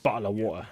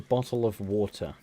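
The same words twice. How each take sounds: First: The T sounds are dropped as glottal stops. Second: The T sounds are pronounced clearly.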